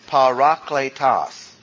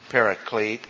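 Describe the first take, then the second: First: The word ends in a full -kletos sound. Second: The word ends in a short -klete sound. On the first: It is the form from the original language. The speaker calls it right. "It's parakletos" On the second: It is the anglicized form of the word. The speaker calls it wrong. "The word is not pronounced paraclete"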